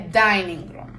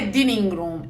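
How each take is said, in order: First: The first vowel is a long 'ai' sound. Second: The first vowel is short, as in living. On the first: The speaker calls it right. "é dining room" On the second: The speaker calls it wrong. "não é dining room"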